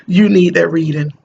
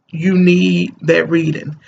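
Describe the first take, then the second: First: Said in the usual way. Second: You need that reading, slowly, leaning on need; slow, stressed repeat. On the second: Shown as a demonstration. Mom urging her viewers, each word slow and weighty. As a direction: drag out need to drive it home.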